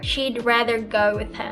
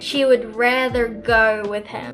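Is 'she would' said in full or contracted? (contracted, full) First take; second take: contracted; full. First: 'She would' is contracted to 'she'd'. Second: The words 'she would' are said in full. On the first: The speaker calls it right. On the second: The speaker calls it wrong.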